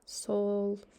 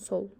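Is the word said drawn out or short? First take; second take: drawn out; short. First: The word is drawn out with a marked intonation. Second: The word is said short and plain. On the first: It is a filler meaning 'so, well, that's it'. "дольше говорим, вот шамамен, надо интонациямен, то есть примерно с такой интонацией" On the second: It means the left side. "Сол — это левая"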